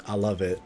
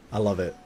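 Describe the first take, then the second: No difference in how they are said.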